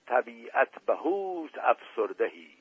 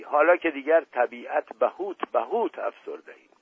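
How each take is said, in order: First: Slow, drawn-out dialect saying of طبیعت بهوت افسردهی; quaint dialect phrase. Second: بهوت repeated twice in a mocking stammer, بهوت stressed; mock stuttered phrase. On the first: Acted. Dust Ali Khan's odd phrase quoted to the guests, said slowly. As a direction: stretch طبیعت بهوت افسردهی out slowly, each word weighted. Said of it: "شازده باز قهقههٔ خنده". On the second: Prince mocks Dust Ali Khan's phrase for the guests, stammering it. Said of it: "قهقههٔ خنده را سر داد".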